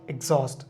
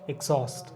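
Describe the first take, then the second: Both takes have the same delivery.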